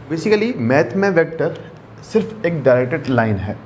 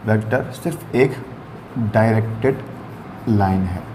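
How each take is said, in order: First: Said in the usual way. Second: Each word set apart with pauses, lower; slow dictation. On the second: Shown as a demonstration.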